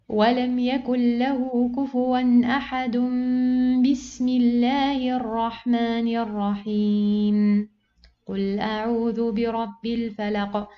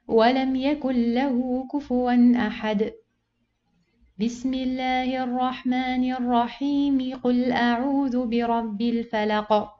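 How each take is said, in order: First: It pauses after the basmala, not before it. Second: It pauses before the basmala, then flows on. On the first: The speaker calls it wrong. "I joined these two parts, and then I pause" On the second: The speaker calls it right. "you finish the first surah, you pause, and you join the basmala with the second surah"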